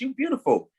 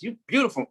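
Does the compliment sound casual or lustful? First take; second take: casual; lustful. First: It sounds like a light, casual compliment. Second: It sounds like an intense, lustful come-on. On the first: It is only an honest compliment. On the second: It is flirting with desire.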